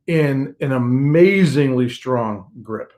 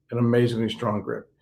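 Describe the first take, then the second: First: Amazingly stretched out slowly with a rising lift; emphatic build. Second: Amazingly strong grip repeated much softer and lower; soft echo. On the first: Pastor assuring the congregation, slow emphatic stress. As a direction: lean into amazingly and slow the whole phrase. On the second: Pastor echoing his point to listeners, soft falling echo. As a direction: let amazingly fall away, almost to yourself. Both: Real, not acted.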